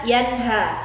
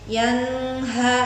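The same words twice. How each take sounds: First: The n is short and clearly pronounced. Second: The n is held, nasal or blurred. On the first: The speaker calls it right. "Jadi bacanya harus jelas" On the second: The speaker calls it wrong. "Nggak boleh"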